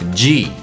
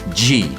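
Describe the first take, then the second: First: It begins with a j sound. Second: The same.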